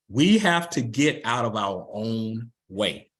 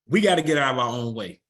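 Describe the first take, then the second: First: It is said slowly. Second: It is said fast.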